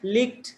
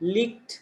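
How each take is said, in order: Both takes have the same delivery.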